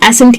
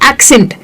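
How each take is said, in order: First: The double c is said as s. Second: The double c is said as ks. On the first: The speaker calls it wrong. "उसे एसेंट कहते हैं ... सिर्फ स तो कभी भी नहीं आता है" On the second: The speaker calls it right. "पहला सी क हो गया दूसरा स हो गया"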